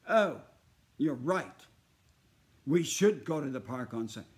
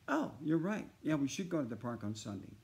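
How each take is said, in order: First: It is said in an exaggerated, overacted way. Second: It is said in a natural, conversational way.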